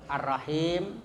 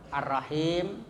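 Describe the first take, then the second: First: The long vowel is held a medium length. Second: The long vowel is held a medium length.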